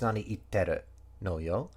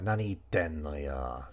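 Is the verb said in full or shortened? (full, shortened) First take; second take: full; shortened. First: The verb ends with a full 'ru' syllable. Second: The 'ru' syllable is reduced to an 'n' sound. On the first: It is the careful, ideal form. "ideally you would pronounce the do in this case" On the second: It is the casual everyday form. "people don't"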